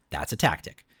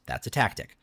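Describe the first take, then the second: No difference in how they are said.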